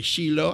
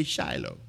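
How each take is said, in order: First: "Shiloh" said SHEE-loh, first vowel like "see"; pronunciation of Shiloh. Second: "Shiloh" said SHY-loh, first vowel like "shy"; pronunciation of Shiloh. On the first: Preacher showing congregation one way to say it, SHEE-loh. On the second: Preacher giving congregation his own way, SHY-loh. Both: Shown as a demonstration. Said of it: "You say Shiloh, I say Shiloh".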